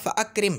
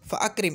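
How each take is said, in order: First: A glottal stop separates fa from akrim. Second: A glottal stop separates fa from akrim.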